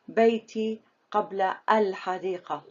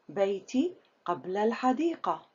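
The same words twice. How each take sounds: First: The preposition and the noun are said separately. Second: The preposition and the noun are run together. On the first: The speaker calls it wrong. "Don't say" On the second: The speaker calls it right. "The correct way to pronounce number three"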